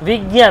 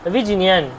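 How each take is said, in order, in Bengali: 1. এই যুক্তবর্ণটি দ্বিত্ব g ধ্বনি হিসেবে উচ্চারিত হয়। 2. এই যুক্তবর্ণটি j ধ্বনি, তারপর n ধ্বনি হিসেবে উচ্চারিত হয়। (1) "আমরা যদি বিজ্ঞান বলি, কিন্তু বিজ্ঞানটা সঠিক উচ্চারণ নয়" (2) "আসলে উচ্চারণটা হচ্ছে বিজিনিয়ান"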